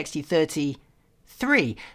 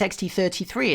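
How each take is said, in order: First: A short pause separates thirty from three. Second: Thirty and three run together without a pause. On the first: It names the third version of the thirty. The speaker calls it right. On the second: It sounds like the number thirty-three. The speaker calls it wrong.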